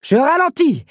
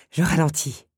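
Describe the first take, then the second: First: High, loud call back; exclaimed surrender at full voice; shouted concession. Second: Said in the usual way. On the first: A narrator's reading. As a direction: yell it to someone behind you. Beast calls back, then gives in. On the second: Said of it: "céda l'incriminé".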